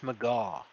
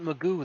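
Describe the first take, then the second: First: The name ends with an 'aw' vowel. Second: The name ends with an 'oo' vowel. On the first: The speaker calls it right. "that's Magaw" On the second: The speaker calls it wrong. "It's not Magoo"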